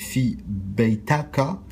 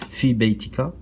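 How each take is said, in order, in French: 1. Aucune voyelle n'est prononcée entre le t et le k. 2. Une voyelle est prononcée entre le t et le k.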